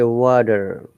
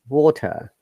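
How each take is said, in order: First: A soft D-like T and an R at the end. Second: A crisp T and no R at the end. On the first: "they will say water, and T sounds like D" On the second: "T is strong and R is silent because British English is non-rhotic"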